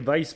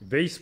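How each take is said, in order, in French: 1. Le nom se prononce à l'allemande. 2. Le nom se prononce à la française. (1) "pour les Allemands" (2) "pour les Français"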